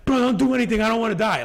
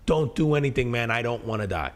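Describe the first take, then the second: First: Much higher and louder, imitating a panicked friend yelling; retold yelling. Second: A mild, understated retelling of a scared friend's plea; retold pleading. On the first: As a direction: mimic a terrified friend shouting from the car. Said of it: "yelling at you". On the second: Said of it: "pleading with me".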